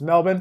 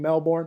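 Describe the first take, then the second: First: The ending is cut short and reduced. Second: The ending is pronounced fully, as written. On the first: The speaker calls it right. "but it's Melbourne" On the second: The speaker calls it wrong. "when I used to try to pronounce the whole thing"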